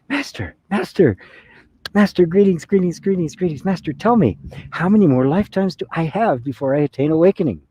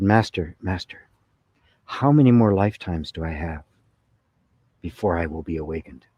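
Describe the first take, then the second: First: High, excitable seeker's voice; eager greeting. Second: A hint of a solemn, disciplined monk; lightly voiced earnest seeker, measured and restrained; stoic monk. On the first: Acted. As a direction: play an overeager disciple tumbling over his greetings. Eager regular guy greets the master. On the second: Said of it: "a very stoic and, and disciplined".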